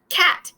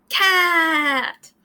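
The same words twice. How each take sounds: First: Said in the usual way. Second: CAT with the A held very long; stretched vowel. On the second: Shown as a demonstration. Teacher showing other vowels stretch, drawn-out "cat". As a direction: draw out the vowel in "cat" before closing on the T. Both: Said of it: "You can do it with other vowels".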